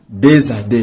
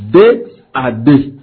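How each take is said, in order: First: The word deux links to the next word with z. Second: The word deux is not linked to the next word. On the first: The speaker calls it right. "la lettre X qui se trouve sur deux ... se prononce comme la lettre Z" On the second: The speaker calls it wrong. "Au lieu de dire"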